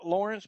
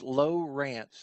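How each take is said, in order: First: The first syllable sounds like 'law'. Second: The first syllable sounds like 'low'. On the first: The speaker calls it wrong. "a lot of people say" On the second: The speaker calls it right. "it's Low Rance"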